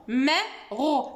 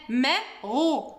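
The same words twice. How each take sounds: No difference in how they are said.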